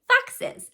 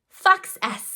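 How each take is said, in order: First: The ending is an added unstressed syllable. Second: The ending is a separate detached s sound. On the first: The speaker calls it right. "We say foxes" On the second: The speaker calls it wrong. "That's not how we pronounce that word"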